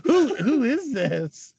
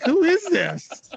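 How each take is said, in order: First: Amused, higher question half swallowed by laughter; laughing question. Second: Higher, slow, amused imitation of a baffled voice; mock confused caller. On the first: Retold or imitated. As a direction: asks who it is while still laughing. Retelling a confused phone question. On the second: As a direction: play the puzzled guy on the line with a grin. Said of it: "He's like".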